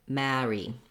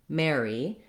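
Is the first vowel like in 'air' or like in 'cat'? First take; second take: like cat; like air. First: The first vowel sounds like the vowel in cat. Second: The first vowel sounds like the vowel in air. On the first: "will use the A vowel in this word... theirs will sound more like marry" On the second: "So building from air, you want air, mare, Mary"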